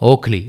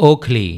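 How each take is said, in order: Both takes have the same delivery.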